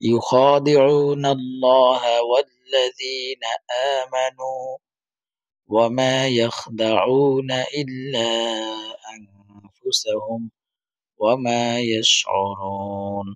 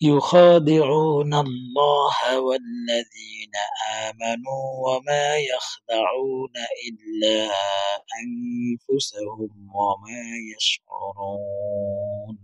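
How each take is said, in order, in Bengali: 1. তিলাওয়াত মাঝপথে থেমে যায়। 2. তিলাওয়াত কোথাও না থেমে একটানা চলতে থাকে। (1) "থামলাম।" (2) "মানে কোনো না থেমেও পড়তে পারবো।"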